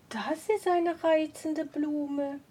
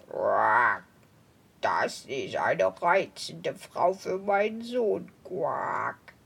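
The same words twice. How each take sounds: First: Delighted woman. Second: Very low, slow croaking toad. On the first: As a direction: marvel gently at the flower. Woman admires the flower. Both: Acted.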